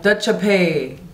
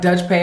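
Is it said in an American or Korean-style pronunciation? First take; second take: Korean-style; American. First: It is said with Korean-style sounds and added vowels. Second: It is said with plain American English pronunciation. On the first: "it'll sound like Dutch pay" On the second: "it won't sound like Dutch pay"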